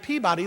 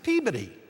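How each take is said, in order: First: Peabody is said the American way. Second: Peabody is said the regional English way.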